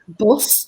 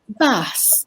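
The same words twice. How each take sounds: First: It is said in a Yorkshire accent. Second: It is said in a southern English accent. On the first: "you can say bus in Yorkshire" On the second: "If you're from the south, you might say bus"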